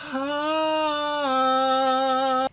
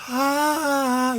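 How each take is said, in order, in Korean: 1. 모음 소리가 강하고 단단하게 들립니다. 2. 모음 소리가 약하고 가늘게 들립니다. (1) "이 소리가" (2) "얘를 빼면 아 이렇게 약하게 되고"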